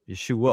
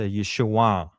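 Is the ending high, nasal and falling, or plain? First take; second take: plain; nasal and falling. First: The name ends in a plain, unnasal 'uh' sound. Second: The name ends in a nasal back sound, falling. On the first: The speaker calls it wrong. "we just say Yeshua with the uh" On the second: The speaker calls it right. "the proper way to say it at that time is a nasal back sound, and it's a downward"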